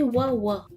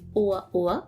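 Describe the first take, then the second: First: The vowels glide together without glottal stops. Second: Glottal stops separate the vowels. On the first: It means narrow. The speaker calls it wrong. "Sans les glottales, ça se prononcerait" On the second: It means joyful. The speaker calls it right. "a les glottales, pour bien le prononcer"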